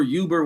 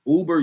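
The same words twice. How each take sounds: First: "Uber" opening with a y glide; y sound in Uber. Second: "Uber" opening on oo, without a y; oo sound in Uber. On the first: Speaker correcting the name, "Uber" as YOO-ber. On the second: Speaker unsure of the name, "Uber" as OO-ber. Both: Shown as a demonstration. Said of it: "whatever the fuck y'all call that shit".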